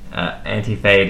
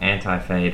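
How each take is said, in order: First: It is said with an Australian accent. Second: It is said with an American accent. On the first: "if they're from Geelong, I'd say Anti-Fade" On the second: "I'm going to say it the American way"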